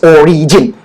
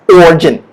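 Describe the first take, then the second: First: "origin" as "o-ree-jin"; I wrongly pronounced. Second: "origin" as two-syllable "OR-jin"; silent I. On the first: Teacher shows what to avoid, "origin" as "o-ree-jin". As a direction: add a clear "ree" inside "origin". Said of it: "please don't say it's origin". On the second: Teacher gives the right version, "origin" as "OR-jin". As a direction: skip the middle i in "origin". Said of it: "The I is a silent I". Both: Shown as a demonstration.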